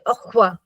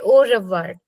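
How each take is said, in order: First: Sounds are dropped and the syllables run together. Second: Every syllable is pronounced fully, as spelled. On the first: The speaker calls it right. "We just say au revoir" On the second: The speaker calls it wrong. "We don't say au revoir"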